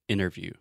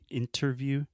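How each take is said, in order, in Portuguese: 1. O som do T depois do N é omitido. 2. O som do T depois do N é pronunciado. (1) "I do not pronounce the T. ... I'm saying interview" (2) "So I'm not saying interview"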